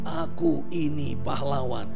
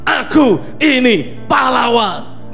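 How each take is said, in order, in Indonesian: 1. Diucapkan dengan nada yang lemah dan malu-malu. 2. Diucapkan dengan energi yang kuat dan penuh percaya diri.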